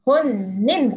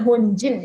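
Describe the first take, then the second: First: The middle consonant is a plain n sound. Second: The middle consonant is a j sound. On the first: The speaker calls it right. "Honin bukan Honjin ya" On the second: The speaker calls it wrong. "bukan Honjin"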